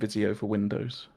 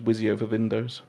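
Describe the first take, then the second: First: The v and w sounds are ordinary English. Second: The v and w sounds are swapped.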